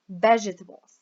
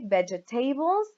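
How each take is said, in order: First: The stress is on the first syllable. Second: The stress is on a later syllable. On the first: The speaker calls it right. "We say vegetables" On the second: The speaker calls it wrong. "We don't say vegetables or vegetables"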